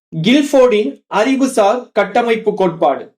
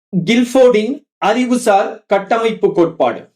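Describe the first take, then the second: No difference in how they are said.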